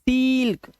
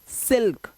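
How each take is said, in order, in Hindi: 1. स्वर लंबा खींचा गया है। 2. स्वर छोटा और तेज़ है। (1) "ये गलत हो जाएगा" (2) "जल्दी बोलना है"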